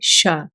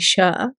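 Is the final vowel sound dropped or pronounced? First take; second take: dropped; pronounced. First: The final vowel sound is dropped. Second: The final vowel sound is pronounced. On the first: The speaker calls it right. "we don't stress on a, ... we say sha" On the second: The speaker calls it wrong. "we don't say sha'a"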